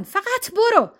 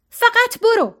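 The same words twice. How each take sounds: First: Higher, firm 'فقط برو' with falling end; cold order to leave. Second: Much higher, louder 'فقط برو', hitting 'فقط'; furious shout. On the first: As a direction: order them out, held in. Serena orders them out. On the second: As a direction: shout them out of the room. Serena's final order. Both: A narrator's reading.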